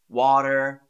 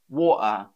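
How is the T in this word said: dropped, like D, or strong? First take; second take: like D; dropped. First: The T sounds like a soft D. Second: The T is left out completely. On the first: This is how an American speaker says it. "how an American would say these words ... it sort of turns into a D" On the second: This is how some other British speakers say it. "some British people drop the T altogether"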